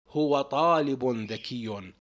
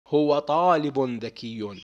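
The two takes are said the same way.

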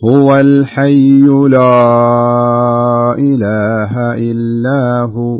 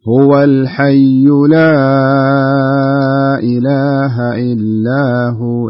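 First: The long vowel in 'la' is heavy and darkened. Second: The long vowel in 'la' is light and clear. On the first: The speaker calls it wrong. "أنا بقرأها الخطأ ... إنه بالبداية فخمت ... أيوة فخمت الألف" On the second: The speaker calls it right. "ثم بقرأ الثانية الصح"

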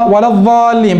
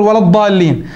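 First: The emphatic consonant is pronounced as ẓāʾ. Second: The emphatic consonant is pronounced as ḍād. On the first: The speaker calls it wrong. "لو أبدل الضاد ظاء، وهذا كثير تجد الإمام يقول" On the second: The speaker calls it right. "بدل يقول"

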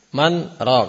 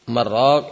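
First: A brief pause separates the two words. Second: The words run together with no pause. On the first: It asks who performs the healing. The speaker calls it right. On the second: It means meat broth. The speaker calls it wrong.

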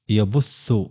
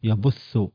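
The two takes are said the same way.

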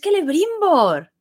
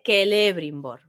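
First: The stress is on the last syllable. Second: The stress is on the second syllable. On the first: The speaker calls it right. "Termina en consonante. O sea que es Celebrimbor" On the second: The speaker calls it wrong. "De base está en la tercera"

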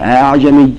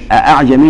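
First: The second glottal stop is softened and eased. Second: Both glottal stops are pronounced fully. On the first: "نقول أعجمي" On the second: "بدل أعجمي"

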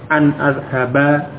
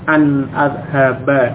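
The two takes are said the same way.

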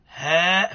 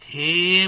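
First: The vowel is a plain open 'a'. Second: The vowel leans from 'a' toward 'e'. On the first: "هاء فتحة" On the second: "هي ممالة"

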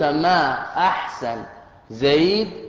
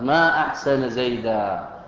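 First: The words end with no case vowels. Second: Ahsan ends in a, zayd ends in -an. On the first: The intended meaning does not show. "هكذا بالتسكين" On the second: It expresses wonder at how good Zayd is. "نصبت أحسن ونصبت زيدا"

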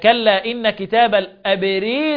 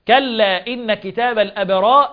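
First: The long vowel before the final r leans toward i. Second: The long vowel before the final r is open.

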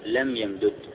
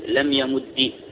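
First: The two d sounds are separate, ending without vowel. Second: The final consonant is doubled and ends in i.

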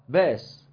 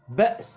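First: A long vowel replaces the glottal stop. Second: A glottal stop is heard in the middle. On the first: "بنقول فيها باس" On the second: "تبدل الهمزة الساكنة بحرف مد"

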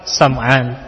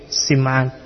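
First: The first vowel is an 'a' sound. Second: The first vowel is an 'i' sound. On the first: "boleh juga dibaca fathah" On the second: "dengan kasrah huruf sin"

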